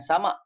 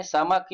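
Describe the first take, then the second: First: Samak with the final k dropped, ending open; wrong samak. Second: Samak ending on a clear hard k; samak with kaf. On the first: Teacher contrasting the wrong version: samak without the final k. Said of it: "bukan samak". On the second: Teacher correcting students: samak ending on a hard k. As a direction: stress the final k in samak. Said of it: "sebutan dia samak kaf". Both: Shown as a demonstration.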